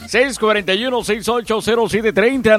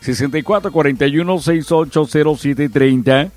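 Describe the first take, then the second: First: The number is said fast. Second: The number is said slowly.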